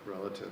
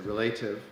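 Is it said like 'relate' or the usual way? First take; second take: usual; relate. First: It is said the usual way, unlike relate. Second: It is said with the sound of relate. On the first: The speaker calls it right. "you say re- relative" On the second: The speaker calls it wrong. "you don't say relative"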